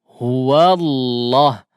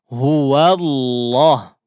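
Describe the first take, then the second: No difference in how they are said.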